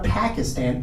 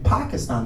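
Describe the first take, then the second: First: The word is said in an anglicized way. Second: The word is said in a native-style way. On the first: The speaker calls it wrong. "not Pakistan" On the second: The speaker calls it right. "the correct pronunciation of the country where I'm from"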